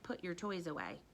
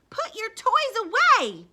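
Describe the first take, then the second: First: It is said plainly, without loudness or feeling. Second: It is said loudly, like a yell. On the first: It is just a plain statement. The speaker calls it wrong. "If I just said, ... it wouldn't sound the same" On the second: The mother is angrily ordering him. The speaker calls it right. "You need to know that his mom is yelling that"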